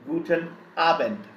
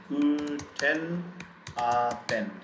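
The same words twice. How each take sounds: First: Said in the usual way. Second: Guten Abend in long, level, separated syllables; syllable-by-syllable pronunciation. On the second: Shown as a demonstration. Teacher showing learners how to pronounce it, slow syllables. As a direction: sound out Guten Abend slowly, piece by piece. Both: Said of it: "How do we pronounce it?".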